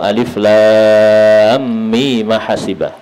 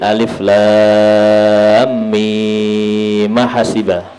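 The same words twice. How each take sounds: First: The vowel of mim is held short. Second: The vowel of mim is held long. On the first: "enam dan dua" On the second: "enam dan dua"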